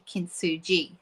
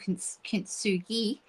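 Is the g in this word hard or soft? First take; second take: soft; hard. First: The g is pronounced as a soft g. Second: The g is pronounced as a hard g. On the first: The speaker calls it right. "but it's apparently kintsugi" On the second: The speaker calls it wrong. "I was using a hard G"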